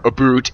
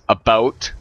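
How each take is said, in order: First: The second syllable rhymes with 'boot'. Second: The second syllable rhymes with 'out'. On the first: The speaker calls it wrong. "it's not a or a boot" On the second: The speaker calls it right. "We say it like that"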